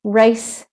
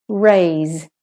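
First: "Race" short, with hissed s; teacher's clear "Race" with final s; voiceless S ending. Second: "raise" long, with buzzing z; teacher's drawn-out "raise" with final z; voiced Z ending. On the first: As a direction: end "Race" on an unvoiced s. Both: Shown as a demonstration. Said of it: "to hear the difference".

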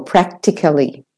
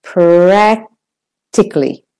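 First: Said in the usual way. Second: Practically with PRAC drawn out slowly; long stressed A. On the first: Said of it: "Practically or practically". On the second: Shown as a demonstration. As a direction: hold the a in "Practically", pause, then "tically". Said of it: "slightly longer because that's the stressed syllable".

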